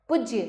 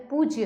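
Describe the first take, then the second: First: पूज्य with a short "u", "puj-ya"; पूज्य said briskly as "PUJ-ye"; wrong short u. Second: Said in the usual way. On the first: Shown as a demonstration. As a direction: clip the first vowel of पूज्य. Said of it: "पूज्य नहीं होता है". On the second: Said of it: "पूज्य होता है".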